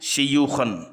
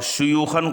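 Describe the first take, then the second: First: The first vowel is an 'i' sound. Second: The first vowel is an 'u' sound.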